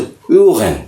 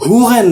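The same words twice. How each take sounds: First: ह्यूगन with the h kept nearly silent, like uːgen; silent h pronunciation. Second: ह्यूगन with the h spoken, the wrong way; wrong H-sound pronunciation. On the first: Teacher models ह्यूगन for learners with near-silent h. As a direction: soften the h in ह्यूगन almost away. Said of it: "एच थोड़ा सा silent रखते". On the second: Teacher shows learners the wrong ह्यूगन with h. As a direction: say ह्यूगन sounding the h, as the error to avoid. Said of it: "ह्यूगन नहीं पढ़ते". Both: Shown as a demonstration.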